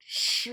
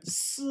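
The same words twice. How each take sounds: First: "Sh" as the deeper version of S; deeper H sound. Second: S without the added H; plain S sound. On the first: Teacher showing what adding H does, deeper Sh sound. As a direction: add the H to make "Sh" deeper. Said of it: "when I added the H". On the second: Teacher showing the S before adding H, plain S sound. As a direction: say "S" as a thin, unspat hiss. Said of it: "I just call it deeper". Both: Shown as a demonstration.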